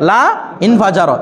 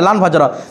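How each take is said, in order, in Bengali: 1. 'La' পরের ক্রিয়া থেকে আলাদা করে বলা হয়। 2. 'La' ক্রিয়ার সাথে মিশে যায়, উচ্চারণ হয় 'lan'-এর মতো।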